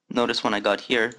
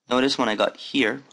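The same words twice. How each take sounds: Both takes have the same delivery.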